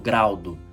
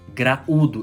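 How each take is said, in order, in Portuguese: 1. As vogais a e u formam uma só sílaba. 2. As vogais a e u ficam em sílabas separadas. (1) "eu não falo graudo" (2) "Hiato, duas vogais em sílabas separadas"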